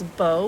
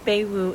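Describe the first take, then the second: First: The first name sounds like 'bow'. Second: The first name does not sound like 'bow'. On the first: The speaker calls it right. "it's Beau, like hair bow" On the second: The speaker calls it wrong. "the first name is not Bewu"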